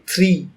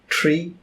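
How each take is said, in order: First: The word begins with a soft th sound. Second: The word begins with a hard t sound. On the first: "as in English in India" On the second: "something like tree, so like a very hard th sound"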